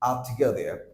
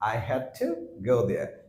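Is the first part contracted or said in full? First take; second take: contracted; full. First: "I had" is shortened into one syllable. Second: "I had" is said as two full words.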